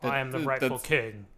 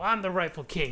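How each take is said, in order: First: The line is spoken in a grave, serious manner. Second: The line is spoken in a casual, light manner. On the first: "he sounds more serious" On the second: "That's not what he sounds like"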